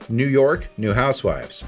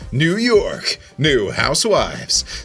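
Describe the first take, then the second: First: The word endings are short and plain. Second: The word endings are stretched out dramatically. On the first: "instead of saying" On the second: "I'm kind of writing out the end of my words a little bit more"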